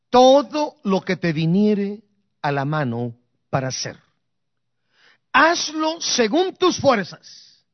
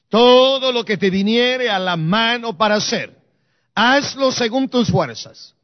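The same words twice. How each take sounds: First: It is read in a normal speaking voice. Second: It is read in a loud, resonant voice.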